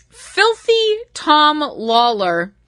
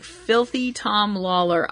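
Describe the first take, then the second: First: "Filthy Tom Lawler" stretched very slowly, savouring each word; drawn-out ring name. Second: "Filthy Tom Lawler" said slowly and flatly, softer, in disbelief; deadpan repeat. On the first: Shown as a demonstration. Vlogger relishing a wrestler's silly name, slow and drawn out. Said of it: "the name Filthy Tom Lawler". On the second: Retold or imitated. Vlogger repeating the silly name to herself, deadpan and slow. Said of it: "I'm like".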